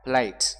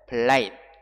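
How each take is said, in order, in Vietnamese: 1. Âm t cuối được bật ra với một luồng hơi. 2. Âm t cuối được giữ lại và không bật ra. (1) "chúng ta bật âm tờ ra" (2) "để lưỡi lên hàm răng trên, phía sau hàm răng trên"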